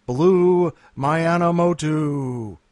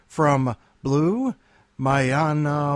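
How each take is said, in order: First: "Mayanamoto" drawn out slowly, syllable by syllable; slow and loud, sounding out "Blue Mayanamoto"; careful name. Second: "Mayanamoto" read off quickly at normal pace, unsure; a first stab at "Mayanamoto", no care taken; first try at the name. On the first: Host retries the new reader's name "Mayanamoto" slowly and carefully. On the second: Host introducing a new reader tries "Mayanamoto". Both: Shown as a demonstration. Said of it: "Did I say that right?".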